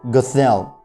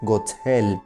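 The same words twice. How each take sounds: First: The name is said with English-style sounds. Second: The name is said with German-style sounds. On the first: This is how many people commonly say it. "many people would say Gothel" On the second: It fits the story's German setting. "since this story is supposed to take place in Germany, I'm going to pronounce it Gothel"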